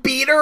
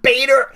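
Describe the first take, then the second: First: It is said with a British pronunciation. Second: It is said with an American pronunciation. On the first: "he's saying beta" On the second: "and not beta"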